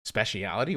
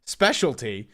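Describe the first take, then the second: First: "Speciality?" said with five syllables, spe-she-AL-i-ty, rising like a doubtful question; British-style mispronunciation. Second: "Specialty." firmly corrected to three syllables, SPE-shul-tee; American correction. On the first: Streamer catches himself reading "Speciality?" the British way. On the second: Streamer corrects himself to the American "Specialty.". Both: Shown as a demonstration. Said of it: "What the fuck am I? European?".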